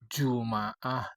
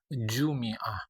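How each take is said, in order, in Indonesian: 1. Vokal setelah m adalah a. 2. Vokal setelah m adalah i. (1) "Bisa dibaca" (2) "Bisa dibaca"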